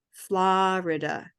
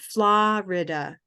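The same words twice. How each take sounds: No difference in how they are said.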